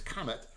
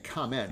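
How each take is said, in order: First: It sounds like the word 'comet'. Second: It sounds like the word 'comment'. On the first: The speaker calls it right. "It's Comet" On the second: The speaker calls it wrong. "I think I keep saying Comment"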